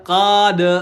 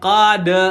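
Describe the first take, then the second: The two takes are said the same way.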